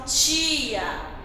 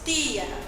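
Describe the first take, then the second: First: It is said in a Rio de Janeiro accent. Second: It is said in a Northeastern Brazilian accent. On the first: This is the Rio de Janeiro way of saying it. "lá no Rio de Janeiro, algumas pessoas falam tia" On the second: This is the Northeastern way of saying it. "Aqui no Nordeste, nós falamos tia"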